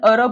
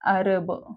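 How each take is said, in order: First: The first vowel is a short, central 'uh' sound. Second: The first vowel is an open, front 'a' sound. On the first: This is the everyday local way of saying it. The speaker calls it wrong. "आपण अरब म्हणतो" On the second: This is the English way of saying it. The speaker calls it right. "इथं अजून त्यांनी ऍचाच उच्चार घेतलाय"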